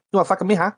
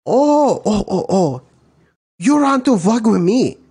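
First: Mock Asian accent, pitched up. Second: High, loud mock Asian accent. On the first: Imitating Asians squaring up to someone, mock accent. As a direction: put on a higher Asian-accented challenge. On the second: Second comedian answering the Asian challenge, louder mock accent. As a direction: blow up in a hammed-up Asian accent. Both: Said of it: "Then you got your Asians".

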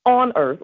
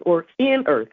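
First: Said in the usual way. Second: In earth, with in stressed and falling; correcting on to in, in stressed. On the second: Shown as a demonstration. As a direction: hit the word in. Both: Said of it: "actually is what it says".

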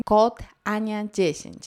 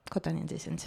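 First: Slow, hammered-in code announcement; mock promo plug. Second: Low, soft throwaway code mention; muted promo plug. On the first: Vlogger parodying sponsored posts, slow pushy plug. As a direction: push the code slowly and deliberately. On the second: Pretend. Vlogger sneaking in the code, low quiet plug. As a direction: slip the code in under your breath.

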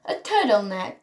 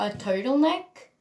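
First: Slight British accent on "turtleneck". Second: Said in the usual way. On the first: Real, not acted. Vlogger repeats her outfit item, British accent. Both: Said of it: "a British accent a little bit sometimes".

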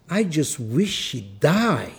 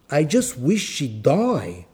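First: Put-on slow Greek-accented wish; I just wish she'd die, slow in a Greek accent. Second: Put-on I just wish she'd die, thicker Greek accent on the repeat; heavier Greek accent. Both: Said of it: "I'll do the exact accent".

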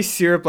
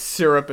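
First: "syrup" said the Northern way; Northern pronunciation. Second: "syrup" said the Southern way; Southern pronunciation. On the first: Owning up to own habit, "syrup" in Northern pronunciation. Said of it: "syrup like I'm from the North". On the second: Correcting to local usage, "syrup" in Southern pronunciation. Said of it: "it's syrup in the South". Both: Shown as a demonstration.

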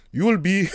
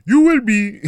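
First: A hint of a Nigerian parent's accent, half-started; briefly voiced Nigerian parent, higher and louder. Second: Put-on high, loud Nigerian parent accent; hammed-up Nigerian accent. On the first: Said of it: "I'm not doing the accent". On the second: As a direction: bark it like a stern Nigerian parent. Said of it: "the accent would have been off".

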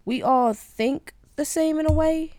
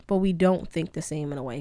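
First: "we all think the same in a way" lifted high, loud and slow; emphatic stress. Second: Said in the usual way. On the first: Real, not acted. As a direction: lean hard on "we all think the same in a way" to set up the contrast. Contrasting same versus different.

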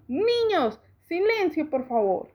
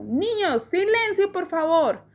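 First: A light copy of the teacher, higher; imitating the teacher. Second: Voz de maestra, más aguda, pidiendo calma; maestra pidiendo silencio. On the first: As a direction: echo the teacher word for word. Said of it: "sonaba igual a la señorita Olivia". (Luis imitando a la maestra, levemente más aguda) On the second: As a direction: como la señorita Olivia mandando callar a la clase. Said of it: "la señorita Olivia dijo". (voz de maestra que pide silencio) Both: A narrator's reading.

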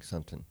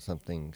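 First: "something" said softly as "sump'n", the th dropped; Southern something. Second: Said in the usual way. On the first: Shown as a demonstration. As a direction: drop the th in "something", country style. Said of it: "it's not something, something". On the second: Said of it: "No, you, it's not something".

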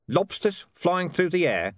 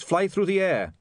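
First: Flat. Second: Said in the usual way. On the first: A narrator's reading. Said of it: "said Vimes flatly".

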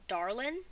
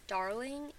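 First: "darlin'" ending in a plain n; dropped-g darlin'. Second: "darling" with its ng sounded; full -ing darling. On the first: Retold or imitated. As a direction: clip the g off "darlin'". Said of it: "Dad uses it for Mom, and he says". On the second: Shown as a demonstration. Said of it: "when you say it".

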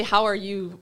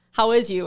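First: Imitated Midwestern "How are you?"; Midwestern pronunciation. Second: "How is you?" run together as one greeting; word swallowed. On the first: Southerner mimics how northerners greet, Midwestern "How are you?". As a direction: say "How are you?" as locals do, words run together. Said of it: "you guys say". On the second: Retold or imitated. Southerner mimics locals missing a word, swallowed "How is you?". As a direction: imitate locals squashing "How is you?", middle word nearly lost. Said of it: "you miss a whole word".

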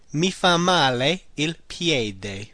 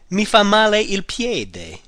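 First: Slow, deliberate repeat. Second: Slow, careful model phrase. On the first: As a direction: repeat it slowly for learners. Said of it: "The foot does me bad". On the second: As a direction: lay it out for learners. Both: Shown as a demonstration.

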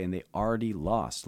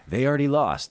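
First: Said in the usual way. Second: Emphatic repeat. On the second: Shown as a demonstration.

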